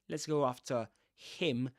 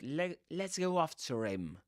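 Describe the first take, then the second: First: The words 'after him' are said separately. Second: The R in 'after' links into 'him'. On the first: The speaker calls it wrong. "not let's go after him" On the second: The speaker calls it right. "a Lincoln Ra there"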